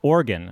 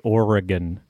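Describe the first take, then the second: First: The word is said with syllables dropped. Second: The word is said with all its syllables. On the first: "you're missing syllables" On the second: "we say Oregon"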